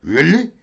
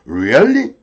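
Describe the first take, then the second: First: "Really" clipped to "lli", short rising; lighter, relaxed confirmation; casual check. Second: "Really" full, rising tune; checking really. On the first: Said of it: "좀 편하게 확인하는 거죠". (편하게 확인하는 리얼리) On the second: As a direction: ask to confirm, with a lift. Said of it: "이건 확인이야". (확인하는 리얼리) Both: Shown as a demonstration.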